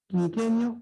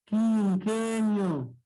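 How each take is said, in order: First: Said in the usual way. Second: Quinquenio drawn out slowly, syllable by syllable; split into syllables. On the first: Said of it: "un diptongo". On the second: Shown as a demonstration. Teacher shows class the syllable split, quinquenio very slow. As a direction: stretch each syllable of quinquenio. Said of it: "cómo sería la separación silábica".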